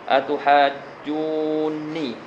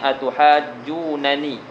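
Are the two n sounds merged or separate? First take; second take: merged; separate. First: The two n sounds merge into one doubled n. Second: The two n sounds are said separately. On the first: "di idghamkan" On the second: "Maksudnya atuhajjunani"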